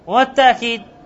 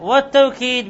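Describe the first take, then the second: First: The word has a softened glottal stop in the middle. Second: The word has a w sound in the middle. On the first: "تسهيل همزة" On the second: "بالواو، وأفصحها التوكيد"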